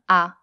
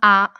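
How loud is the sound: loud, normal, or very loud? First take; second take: normal; loud. First: The sound is said at normal volume. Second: The sound is said louder than normal. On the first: "avec une voix normale" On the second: "plus fort"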